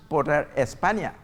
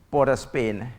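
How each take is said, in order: First: España said the Spanish way, es-PAH-nya; Spanish pronunciation. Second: Said in the usual way. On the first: Shown as a demonstration. Comedian showing the island's Spanish influence, España pronounced in Spanish. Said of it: "is Spanish". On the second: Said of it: "The very name Port of Spain".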